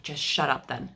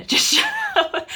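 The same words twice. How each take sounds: First: Said in the usual way. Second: Much higher, louder, breaking into laughter; laughing shout. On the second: Retold or imitated. Wife in labor telling husband off, laughing yell. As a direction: yell it and crack up. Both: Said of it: "And I'm like".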